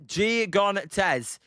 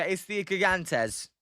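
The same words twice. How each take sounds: First: Proud Spanish "Gigantes". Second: Slow, firm "Gigantes" with a hard k start; patient correction, "it's the Gigantes"; insisting Gigantes. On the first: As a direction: say "Gigantes" the Spanish way, hee-GAHN-tes. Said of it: "That's what I call them". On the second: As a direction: lean on "Gigantes" to prove the point. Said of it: "I'm telling you". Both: Shown as a demonstration.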